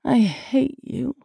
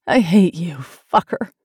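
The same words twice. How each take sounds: First: High, slow, drawn-out plea; pleading. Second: Louder, sharp falling insult; angry outburst. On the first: Woman tells her lover she hates him, pleading. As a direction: let hatred turn into begging. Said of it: "It sounded like a plea". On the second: Woman lashes out at her lover, angry. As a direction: throw the hatred out hard. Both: A narrator's reading.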